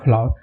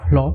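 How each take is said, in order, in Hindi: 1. यह शब्द दो सिलेबल में बोला जाता है। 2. यह शब्द एक छोटे सिलेबल में बोला जाता है। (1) "कहीं कहीं इसका प्रोनाउंसिएशन जो होता है फ्लावर" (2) "कहीं कहीं इसका प्रोनाउंसिएशन फ्लो होता है"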